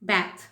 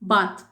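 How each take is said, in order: First: It is said in an American accent. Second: It is said in a British accent. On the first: "second பண்ணது American English" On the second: "first நான் pronounce பண்ணுறது எல்லாமே British"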